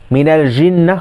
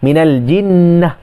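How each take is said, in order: First: The j is soft and hissing like sh. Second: The j is a firm, held stop. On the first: The speaker calls it wrong. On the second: The speaker calls it right. "Syiddah dia tertahan"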